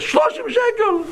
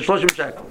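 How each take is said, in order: First: High, drawn-out indignant taxi driver; mimicking driver. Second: Said in the usual way. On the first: Imitating the upset cabbie as he snaps the fare back. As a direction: squeal the price like the offended driver. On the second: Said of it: "He said, "Shloshim shekel".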